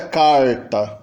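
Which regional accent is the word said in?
Caipira. It is said in a caipira rural accent. "E do dialeto caipira"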